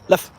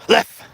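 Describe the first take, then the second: First: It is said in a calm, conversational tone. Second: It is said sharply with urgency.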